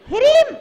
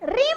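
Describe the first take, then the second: First: The word starts with an h before the r. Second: The word starts directly with the r sound. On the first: The speaker calls it right. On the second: The speaker calls it wrong. "रीम नहीं बोलना है"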